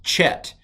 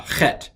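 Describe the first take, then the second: First: Chet said with an English ch as in church; wrong English ch. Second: Chet with a rasping throat ch as in German lach; chet, Scottish loch sound; guttural chet. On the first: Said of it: "Hebrew does not have a ch sound". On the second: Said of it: "sounds like you got something in your throat". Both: Shown as a demonstration.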